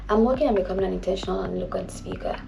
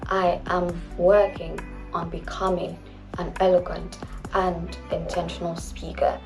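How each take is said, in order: First: It is said at a normal pace. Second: It is said even more slowly.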